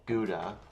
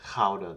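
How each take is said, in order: First: The word starts with a hard g sound. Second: The word starts with a throaty, rasping g sound.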